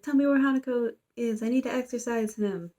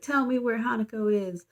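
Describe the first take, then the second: First: Demanding yell. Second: Said in the usual way. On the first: Retold or imitated. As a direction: push the demand up in pitch like a retold yell. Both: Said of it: "we see this guy yelling".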